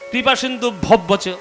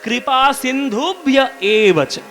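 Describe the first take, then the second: First: The ending is slurred into 'bhabbacha'. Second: The ending is clearly said as 'bhya eva cha'. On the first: The speaker calls it wrong. "এসব বললে হবে না।" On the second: The speaker calls it right. "এটা পরিষ্কার উচ্চারণ।"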